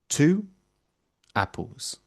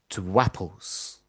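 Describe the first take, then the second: First: The words are said separately with no linking sound. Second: A w sound links the two words together. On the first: "you almost never hear those words pronounced like that" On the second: "we hear the w in two apples"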